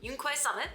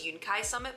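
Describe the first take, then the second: First: The second syllable starts with a kw sound. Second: The second syllable starts with a plain k sound. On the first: The speaker calls it right. "Quai is probably a more correct pronunciation" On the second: The speaker calls it wrong. "I generally thought it was Yunkai Summit"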